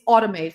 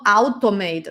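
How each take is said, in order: First: The first vowel is an 'o' sound. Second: The first vowel is not an 'o' sound. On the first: The speaker calls it right. "it always pronounces as O" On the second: The speaker calls it wrong. "not automate"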